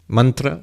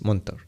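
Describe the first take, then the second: First: It is said as 'mantra', ending in 'a'. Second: It is said as 'montor', ending in 'or'. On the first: This is the formal Sanskrit form. "the Sanskrit word mantra" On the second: This is the everyday spoken form. "In colloquial Bengali, they will pronounce it as montor"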